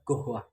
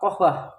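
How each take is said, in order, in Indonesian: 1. Kata ini diawali dengan bunyi g. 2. Kata ini diawali dengan bunyi k. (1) "bagi orang Mesir dibaca gohwah" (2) "kata kohwah"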